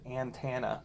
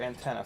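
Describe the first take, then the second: First: The word is said in an imitated, odd pronunciation. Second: The word is said in an ordinary pronunciation.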